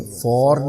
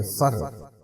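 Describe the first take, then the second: First: For with a full long "or"; clearly voiced full-vowel for. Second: For as a short schwa "fer"; low, soft, weakened for; reduced vowel. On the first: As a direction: say for unreduced. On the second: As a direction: drop for to an unstressed "fer". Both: Shown as a demonstration. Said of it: "नहीं कहेंगे".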